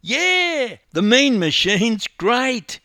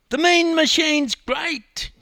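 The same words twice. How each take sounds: First: High, loud, slow chorus-style cheer; boys chorusing. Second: Put-on very high, loud, drawn-out boy's cheer; young boy crying out. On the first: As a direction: echo the cheer like a gang of young mates. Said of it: "chorused his three mates". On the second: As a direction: cry it out like a boy cheering his heroes. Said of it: "cried a young boy". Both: A narrator's reading.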